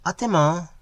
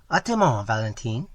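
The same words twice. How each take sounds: First: Put-on higher, light girlish call; girl calling back. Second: Calling back. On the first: Girl returns the greeting, light higher call. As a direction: answer him in the same breath, brightly. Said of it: "she cried". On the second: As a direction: call it back as you walk off. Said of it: "calling back". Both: A narrator's reading.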